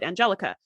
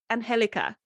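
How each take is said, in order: First: The name is pronounced with English sounds. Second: The name is pronounced with Spanish sounds. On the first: This is how it reads to English speakers. The speaker calls it wrong. "If you're speaking English, like that's how you would pronounce it" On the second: This is how the name is meant to be said. The speaker calls it right. "the way her name is supposed to be pronounced"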